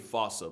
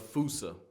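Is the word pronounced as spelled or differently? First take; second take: as spelled; differently. First: The word is pronounced as it is spelled. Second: The word is not pronounced as spelled. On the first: This is probably the correct pronunciation. "with its spelling, I'm pretty sure it's actually fossa" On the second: This is the familiar pronunciation from childhood. "the day I pronounce it like that is the day I lay my childhood to rest"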